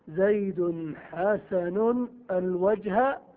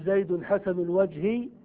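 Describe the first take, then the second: First: The last word ends with an a vowel. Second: The last word ends with an i vowel. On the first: The noun is treated like a direct object. "ويجوز أن تنصب المعمول" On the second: The noun is governed by annexation. "يجوز أن تجر معمولها فتقول"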